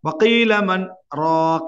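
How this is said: A brief stop separates 'man' from 'raq'. The speaker calls it right. "கொஞ்சம் நின்றது"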